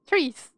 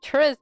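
First: Trees with a long "ee"; mispronounced name ending. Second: Tris with a short vowel, as in Demetrius's proper ending; correct name ending. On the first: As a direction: stretch the vowel in Trees, rhyming with "please". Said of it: "I pronounce it as Trees". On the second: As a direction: say Tris short, not like "trees". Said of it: "It's like Tris, but". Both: Shown as a demonstration.

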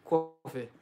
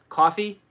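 First: "coffee" as "kwaw-fuh" with a rounded w glide; "coffee" with the w after the k and an uh ending; Rhode Island coffee. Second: Said in the usual way. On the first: Shown as a demonstration. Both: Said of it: "Rhode Island people say it's coffee".

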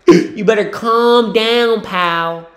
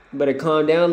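First: Slow, loud, high stern warning; mock stern warning. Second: Said in the usual way. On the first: Real, not acted. Scolding a player on TV, slow stern mock warning. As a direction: warn him like a scolding parent.

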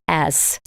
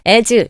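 First: As. much softer and lower, thrown away unstressed; barely touch As., let it drop; weak as. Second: Said in the usual way. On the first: Shown as a demonstration. Teacher models the weak unstressed As. for students. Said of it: "약하게 해주세요". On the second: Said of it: "as 이렇게 하지 않죠?".

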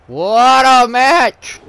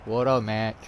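First: Slow, loud drawn-out praise; excited. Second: Said in the usual way. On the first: Real, not acted. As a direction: stretch it out in awe.

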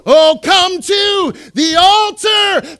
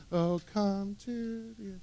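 First: Loud, high, slow shout; cranked up. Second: Soft, slow, half-hearted worship line; timid murmured worship; timid mumble. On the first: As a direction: belt it out with full enthusiasm. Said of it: "crank that up a little bit". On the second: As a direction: sing it like you barely mean it. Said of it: "come on, crank that up a little bit". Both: Shown as a demonstration.

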